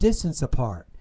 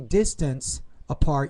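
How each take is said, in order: First: The final sound blends into the next word. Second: The two words are said separately, not linked. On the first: "you said distance apart. So that's blending" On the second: "you didn't say distance apart"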